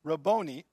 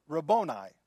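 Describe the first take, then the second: First: Rabboni ending in a "nee" sound; original-word pronunciation. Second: Rabboni ending in a "nigh" sound; original-word pronunciation. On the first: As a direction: say Rabboni as ruh-BOH-nee. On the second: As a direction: say Rabboni as ruh-BOH-nigh. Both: Shown as a demonstration. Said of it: "The actual word is".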